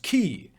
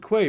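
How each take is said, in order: First: The word sounds exactly like 'key'. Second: The word is said the way it is spelled. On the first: "which is properly pronounced key" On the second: "so I just pronounce it quay"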